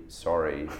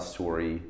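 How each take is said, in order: First: Said in the usual way. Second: SORRY with a long O, like "sore-ee"; Canadian "sorry". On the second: Shown as a demonstration. Actor showing the interviewer the Canadian vowel, Canadian "sorry" as "sore-ee". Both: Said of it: "commenting on how Canadians say sorry".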